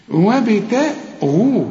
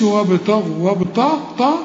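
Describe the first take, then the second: First: Slow recited وابتغوا, thin ت then full غ; light taa, heavy ghain. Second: وابتغوا with the ت thickened into ط; wrong heavy taa. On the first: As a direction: keep ت light in وابتغوا, thicken only the غ. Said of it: "الغين هي المفخمة". (وابتغوا بتاء مرققة وغين مفخمة) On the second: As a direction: say وابتغوا as "wabtaw-ghu". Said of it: "ما تقولش". (وابتغوا بتاء مفخمة كالطاء) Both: Shown as a demonstration.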